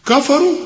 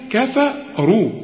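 First: كفروا raised and heavy; wrong reading. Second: كفروا slow with a light ك and ف; correct reading. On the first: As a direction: voice the faulty كفروا. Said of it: "خطأ". (كفروا بنطق خاطئ) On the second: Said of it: "كل كاف في القرآن ك". (كفروا مرققة ببطء) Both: Shown as a demonstration.

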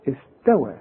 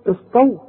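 First: استوى with a thin front ت, lower and softer; light ت. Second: استو with a thick, emphatic ت like ط; wrong heavy ت. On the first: Teacher shows the correct sound, استوى with light ت. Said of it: "زي استوى". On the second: Teacher shows the mistake, استو with heavy ط-like ت. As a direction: say استو too heavy, backed and dark. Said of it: "شوف، استو غلط". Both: Shown as a demonstration.

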